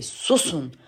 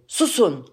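First: Said in the usual way. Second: Higher-pitched call for silence; old sage calling for silence; shouted order. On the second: Acted. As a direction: shout it briefly to hush a crowd. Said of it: "İhtiyar bağırır".

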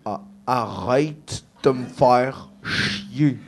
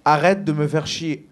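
First: Put-on very slow, laboured Québécois accent; practised Québécois accent. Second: Said in the usual way. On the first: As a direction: stretch every word into a thick Québécois accent. (accent québécois appliqué, très lent) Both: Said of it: "build up mon accent québécois".

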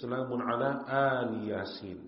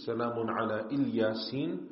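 First: "Al Yasin" opened with a long "aal"; Nafi' reading. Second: "Ilyasin" begun with a short "il" sound; Ilyasin reading. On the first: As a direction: recite "Al Yasin" as two words, stretching the first a. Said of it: "the reading of Nafi' and others". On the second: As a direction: recite "Ilyasin" as one word, opening on short i. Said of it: "there are two qira'as". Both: Shown as a demonstration.

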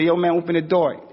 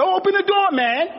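First: Said in the usual way. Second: Hammed-up frantic cry to open the door; shrill overexcited yell. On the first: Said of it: "He say". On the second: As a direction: overblown squeal at the taxi driver. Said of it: "He's trying to say".

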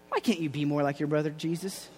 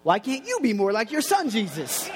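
First: Lightly voiced mom, low and soft; quietly compare him to his brother; mother's chiding. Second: Mock comeback with "you" leaning hard; retort stressing YOU. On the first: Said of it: "Mary looks at him and she's like". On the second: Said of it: "I wonder what James said".

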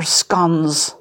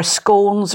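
First: "scones" with a short O, rhyming with dons. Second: "scones" with a long O, rhyming with cones. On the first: Explaining the debate, "scones" with a short O. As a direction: say "scones" like "skons". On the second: Explaining the debate, "scones" with a long O. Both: Shown as a demonstration. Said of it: "debate about whether they're scones or scones".

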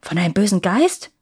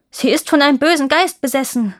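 First: "bösen Geist" as a startled echo, rising sharply on "Geist"; incredulous question, starting at usual pitch and lifting on "Geist"; exclaimed question. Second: "bösen Geist besessen" declared high and loud, falling at the end; raised, urgent statement on "bösen Geist besessen", ending downward; emphatic declaration. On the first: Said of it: "rief der König". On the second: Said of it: "erklärte der Prinz". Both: A narrator's reading.

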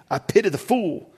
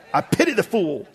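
First: High, loud tough-guy impression; hammed-up tough-guy catchphrase; Mister T. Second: Mister T. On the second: Retold or imitated. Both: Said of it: "I love the Mister T".

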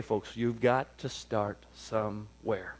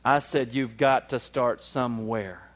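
First: Drawn-out slow, softer point; slow preacher stress on got; slow emphasis. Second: Slow insistent repeat, stress on I; slowed repeat to an inattentive crowd. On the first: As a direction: stretch it out slowly. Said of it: "let me say it slow". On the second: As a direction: say it again slowly for emphasis. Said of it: "let me say it slow so I could say it some more". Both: Shown as a demonstration.

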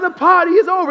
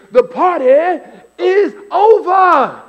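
First: High, loud preacher voice at normal speed; preacher's punchline. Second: High, loud preacher voice with "is over" stretched out slow; preacher's punchline. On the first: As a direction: hit it straight like the repeated refrain. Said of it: "And he was like". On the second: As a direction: land "over" like the sermon's big line. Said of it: "the whole point he kept saying is". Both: Retold or imitated.

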